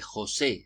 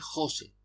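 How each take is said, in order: First: The stress is on the second syllable. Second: The stress is on the first syllable. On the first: This is what the spelling rule marks. "se acentuaba en la e" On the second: This is how she normally said it. "con la sílaba tónica en jo"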